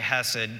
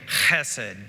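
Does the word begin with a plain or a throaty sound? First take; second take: plain; throaty. First: The word begins with a plain, soft h sound. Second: The word begins with a throaty, rasping sound. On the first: "we don't generally hawk things up when we're speaking English. So we can just say hesed" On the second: "if you're wanting to be really Hebrew, you would say chesed"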